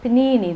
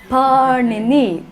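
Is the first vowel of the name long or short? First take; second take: short; long. First: The first vowel is short, as in the sandwich. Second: The first vowel is drawn out long. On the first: It names the sandwich you eat. The speaker calls it wrong. "it's not panini that you eat" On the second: It names the great grammarian. The speaker calls it right. "Let's sound his name"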